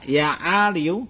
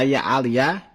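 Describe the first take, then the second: First: The word ends with a 'u' vowel. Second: The word ends with an 'a' vowel. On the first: "kalau seandainya dibaca ali bidomil ya" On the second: "kalau seandainya dibaca ya aliyah bukan ya ali"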